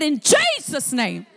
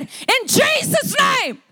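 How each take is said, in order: First: Said in the usual way. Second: High, drawn-out shouted rebuke; frustrated command. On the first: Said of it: "he rose on the inside of him". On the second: Retold or imitated. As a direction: cast it out in retold exasperation. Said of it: "he got frustrated and angry".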